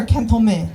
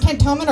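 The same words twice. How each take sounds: First: Cantonment said as "CAN-thle-may"; local pronunciation. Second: Said in the usual way. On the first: Shown as a demonstration. Comic asks crowd how it's pronounced, cantonment as "CAN-thle-may". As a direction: slur cantonment, lisped middle, no final n or t. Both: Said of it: "Is it pronounced cantonment or".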